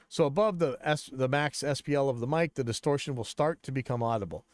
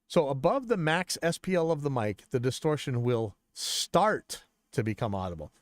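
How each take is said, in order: First: The word start has no special emphasis. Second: The word start is strongly emphasized.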